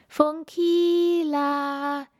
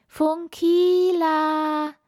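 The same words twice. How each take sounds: First: High, slow, drawn-out call; a far-off choir of star children calling. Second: High, slow call, pushed louder. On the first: Star children calling Funkila home, high and drawn-out. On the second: Star children calling Funkila home, louder high call. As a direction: call out again, louder and longer. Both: Acted.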